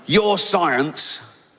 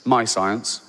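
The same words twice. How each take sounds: First: "Your science" with "Your" stressed and raised; misreading. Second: Said in the usual way. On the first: Retold or imitated. Comic reading out a Texan's tweet, mock shouting "Your science". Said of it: "He's shouting at me".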